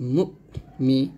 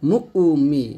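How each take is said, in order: First: The first vowel is cut off sharply and firmly. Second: The first vowel is drawn out into a doubled sound. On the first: The speaker calls it right. "শক্ত করে পড়তে হবে" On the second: The speaker calls it wrong. "এইরকম ডাবল শব্দ করা যাবে না"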